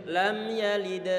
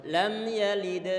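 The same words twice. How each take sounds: Both takes have the same delivery.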